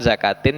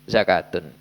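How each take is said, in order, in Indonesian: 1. Kata ini berakhir dengan bunyi 'in'. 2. Kata ini berakhir dengan bunyi 'un'. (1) "Yang di sini kan zakatin" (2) "yang betul zakatun"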